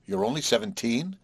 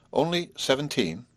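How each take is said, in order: First: Mildly suspicious question, rising at the end. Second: "Only seventeen" as a statement, falling at the end; firm confirmation. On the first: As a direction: question it with a touch of doubt. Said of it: "repeated Marcia suspiciously". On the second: Answer to her suspicious question. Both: A narrator's reading.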